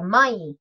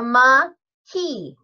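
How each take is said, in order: First: Only the first syllable is said. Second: Both syllables of the word are said. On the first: The speaker calls it wrong. "call it a mai" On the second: The speaker calls it right. "it's a ma key"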